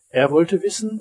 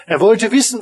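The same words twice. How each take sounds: First: Said in the usual way. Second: Said again higher and louder, stress on wissen; building emphasis on Er wollte wissen; raised emphatic repeat. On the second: A narrator's reading.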